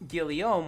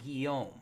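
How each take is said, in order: First: The name is said with an anglicized pronunciation. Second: The name is said with a French pronunciation. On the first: The pronunciation is adjusted for people who don't know the name. The speaker calls it wrong. "correcting for stupid and pronouncing it" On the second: This is the name's real pronunciation. The speaker calls it right. "when it's actually"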